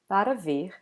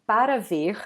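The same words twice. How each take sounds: First: Every syllable is pronounced in full. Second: Every syllable is pronounced in full.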